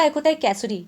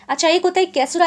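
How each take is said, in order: First: कैसुरी said kay-SOO-ree, ending on a clear "ree"; causerie pronounced. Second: कैसुरा said kay-SOO-rah, ending on a clear open "ra"; caesura pronounced. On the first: Teacher contrasting कैसुरी with कैसुरा for students, ending on "ree". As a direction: say कैसुरी with a final "ree" set against कैसुरा. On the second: Teacher telling students how कैसुरा is said, ending on "ra". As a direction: say कैसुरा with a full "ra" at the end. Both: Shown as a demonstration. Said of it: "उसका pronunciation थोड़ा अलग है".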